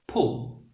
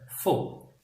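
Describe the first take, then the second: First: The word begins with a P sound. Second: The word begins with an F sound. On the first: The speaker calls it wrong. "the Korean people might be saying this word as" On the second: The speaker calls it right. "instead of"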